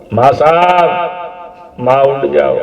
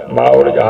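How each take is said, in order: First: Raised pleading call. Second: The same call dropped much lower; fading call. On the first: Jesus calling out to his mother to wake, raised and pleading. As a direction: call to her as if she will answer. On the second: Son repeating his plea to his mother, sinking low and hopeless. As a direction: let the call sink as hope fades. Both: Acted.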